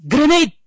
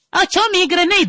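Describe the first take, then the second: First: Loud, raised battle shout; manly war yell. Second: Very high mock squeal; comedy soldier. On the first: Comedian showing what real war sounds like, manly yell. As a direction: shout a serious grenade warning. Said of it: "That's war". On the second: Comedian showing war turned to comedy, high mock cry. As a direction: squeal the warning for laughs. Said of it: "That's not war. That's comedy". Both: Shown as a demonstration.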